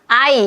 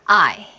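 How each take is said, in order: First: The word is said plainly without breath. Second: The word is said with a breathy sigh. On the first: The speaker calls it wrong. "이게 아니라" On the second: The speaker calls it right. "한숨을 내쉬면서"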